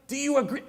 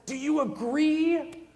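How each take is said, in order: First: Said in the usual way. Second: Drawn-out mock question. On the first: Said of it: "You know, like". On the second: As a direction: drag out the question lazily, for a laugh. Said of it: "we're just like".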